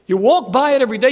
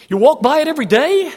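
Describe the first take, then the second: First: Faster, still raised, leaning on walk; quick repeat. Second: Higher and louder, stretching day; emphatic. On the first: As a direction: rattle it off a second time to press it. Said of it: "repeated faster". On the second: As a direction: drive the point home to the congregation. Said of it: "preacher repeats for emphasis". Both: Acted.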